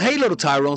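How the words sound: The pitch falls at the end of the phrase. The speaker shows authority. The speaker calls it right. "Like a down voice, down voice"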